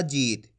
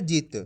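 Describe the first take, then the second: First: "जीत" with a long ee; drawn-out vowel. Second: "जीत" said with a short i, like jit; short vowel. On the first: Teacher contrasting the long matra for students, stretched "जीत". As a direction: draw out the ee in "जीत". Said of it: "तो खींच के पढ़ा जा रहा". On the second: Teacher reviewing the short matra with students, brief-vowel "जीत". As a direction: cut the vowel of "जीत" short, not stretched. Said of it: "इसको कैसे पढ़ा अपन ने". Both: Shown as a demonstration.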